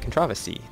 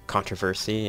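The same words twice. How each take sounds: First: The stress falls on the second syllable. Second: The stress falls on the first syllable. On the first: This is a British way of saying it. "at least some British people say controversy. That's a different way of stressing that" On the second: This is the American way of saying it. "how we say controversy"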